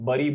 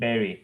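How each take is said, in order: First: The word is said like 'bari'. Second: The word is said like 'berry'. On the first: The speaker calls it wrong. "सब लोग bari बोल रहे हैं, but it is absolutely wrong" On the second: The speaker calls it right. "it is berry"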